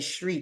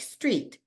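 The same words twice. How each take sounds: First: The word begins with a shifted, regional st sound. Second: The word begins with a plain st sound. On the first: "in this region, we say street" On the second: "S T R is pronounced st- like street"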